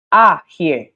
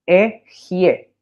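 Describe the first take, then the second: First: Ajie opened with a loud, clear A; A-initial pronunciation. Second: E, Jie split in two, clear E first; E-initial pronunciation. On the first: Teacher giving the causative form, Ajie with an A sound. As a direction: hit the A at the start of Ajie. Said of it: "que le da el sonido A". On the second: Teacher breaking down the Hebrew word, E, Jie in separate syllables. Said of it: "se lee E". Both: Shown as a demonstration.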